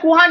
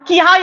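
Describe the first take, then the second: First: The first vowel is a short u. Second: The first vowel is a short i. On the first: "किहा या कुहा नहीं पढ़ा" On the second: "किहा या कुहा नहीं पढ़ा"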